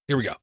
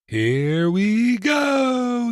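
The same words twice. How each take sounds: First: It is said in his normal voice. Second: It is said in a Peter Pan impression.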